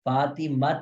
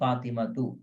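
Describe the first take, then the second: First: The word ends on a bare t sound. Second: The final t is followed by a vowel. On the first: The speaker calls it wrong. "हम इसको फातिमत नहीं कहते" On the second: The speaker calls it right. "बल्कि क्या कहते हैं"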